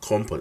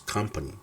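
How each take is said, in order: First: The first vowel sounds like o. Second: The first vowel sounds like uh. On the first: The speaker calls it wrong. "no company" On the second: The speaker calls it right. "it's company"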